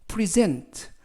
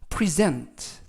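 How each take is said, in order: First: The stress is on the second syllable. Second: The same.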